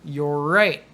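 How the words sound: The two words run together like one word. The speaker calls it right. "Just say it like it's one word"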